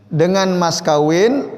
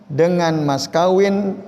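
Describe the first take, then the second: The two takes are said the same way.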